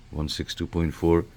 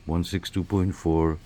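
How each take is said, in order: Both takes have the same delivery.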